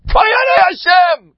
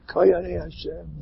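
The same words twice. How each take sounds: First: High, loud, slow shout of horror; horrified outcry, drawn out; anguished cry. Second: Much softer, slow and reverent; a slow, hushed reverent murmur; hushed awe. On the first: Footmen refuse, crying out. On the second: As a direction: breathe it in awe. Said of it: "The awe". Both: Acted.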